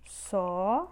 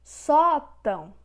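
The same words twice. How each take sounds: First: "Sótão" split into SÓ, long pause, TÃO; syllable by syllable. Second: "Sótão" with a loud, high, long SÓ; stretched stressed syllable. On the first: Teacher separating the word for students, syllable by syllable. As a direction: hold SÓ, pause, then say TÃO. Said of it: "Separamos dessa forma". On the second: Teacher showing the strongest syllable, loud stretched stress. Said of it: "a sílaba que tem mais força". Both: Shown as a demonstration.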